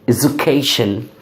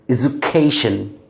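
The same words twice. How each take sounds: No difference in how they are said.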